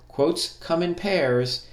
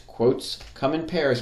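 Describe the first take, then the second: First: Quotes come in pairs, each word spaced out slowly and higher; slow emphatic rule. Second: Said in the usual way. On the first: Shown as a demonstration. Teacher repeating a rule to students, slow and emphatic. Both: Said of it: "You'll hear me say that a lot".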